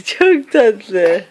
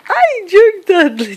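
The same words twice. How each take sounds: First: Said in the usual way. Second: Slow, high, adoring coo. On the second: Real, not acted. Adoring the baby.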